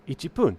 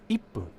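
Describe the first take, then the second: First: The word keeps a full 'chi' syllable. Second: The 'chi' is dropped, giving a doubled 'p'. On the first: The speaker calls it wrong. "you would think because it's pun for minute" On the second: The speaker calls it right. "they just take out the chi"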